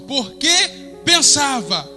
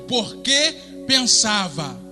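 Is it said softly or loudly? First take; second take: loudly; softly. First: It is said louder and more forcefully. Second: It is said at normal loudness.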